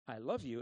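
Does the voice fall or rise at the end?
fall. The voice falls at the end like a statement. It simply declares love. The speaker calls it right. "it wasn't a statement of"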